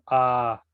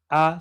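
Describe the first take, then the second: First: The vowel is drawn out and long. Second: The vowel is short and clipped. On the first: "se alarga como A" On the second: "en vez de decir A"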